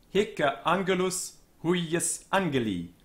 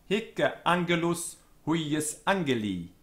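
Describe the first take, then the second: No difference in how they are said.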